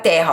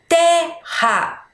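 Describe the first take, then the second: First: Said in the usual way. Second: "Terra" slowly broken in two, TER, pause, RA; split into syllables. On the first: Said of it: "quantas vezes a gente abriu a boca". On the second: Shown as a demonstration. Teacher counting syllables for pupils, "Terra" split in two. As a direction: sound out "Terra" one beat per syllable. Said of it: "quantas vezes a gente abriu a boca pra falar".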